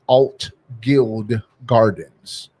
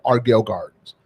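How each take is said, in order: First: The first word sounds like 'Altgeld'. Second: The first word sounds like 'Argyle'. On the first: This is the official name. "the right name is Alt Guild Gardens" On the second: This is how locals say the name. "we pronounce it the Argyle Gardens"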